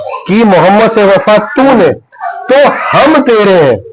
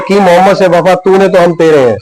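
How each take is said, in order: First: There is a break after 'tune'. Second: The line flows on without a break.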